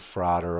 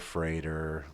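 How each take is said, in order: First: The first vowel sounds like 'a' in father. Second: The first vowel does not sound like father.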